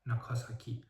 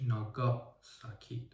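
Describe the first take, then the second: First: "ناکاساکی" with a hard k, nakasaki; misprinted pronunciation. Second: "ناگاساکی" with a g sound, nagasaki; correct pronunciation. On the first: Reviewer reads the city's misprinted name, misprinted pronunciation. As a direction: read the typo "ناکاساکی" with k in place of g. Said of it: "که درستش ناگاساکی". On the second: Reviewer corrects the city name, correct pronunciation. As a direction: say "ناگاساکی" with a voiced g. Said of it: "درستش". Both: Shown as a demonstration.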